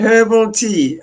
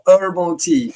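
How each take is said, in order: First: The h at the start of herbal is pronounced. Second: The h is dropped, as Americans say it.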